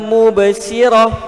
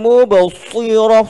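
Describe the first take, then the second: First: The s is a light, plain sound. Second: The s is said with pouting, rounded lips. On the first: It sounds like a different word. "bukan mubsirah, bukan sirah" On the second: It is done to sound extra thick. "Jangan dimuncung"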